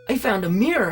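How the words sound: It is said in a put-on character voice.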